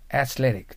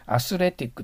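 First: It is said with English-like consonants and stress. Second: It is said in Japanese syllables, like asuretikku. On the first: The speaker calls it right. "athletic と言った方が通じます" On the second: The speaker calls it wrong. "アスレティックと言っちゃダメです"

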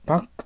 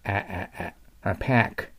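First: The vowel is a plain Japanese-style ah sound. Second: The vowel is a sound between ah and eh. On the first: The speaker calls it wrong. "パックと読まないようにしてください。" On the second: The speaker calls it right. "思い切り後への中間の音を出してください。"

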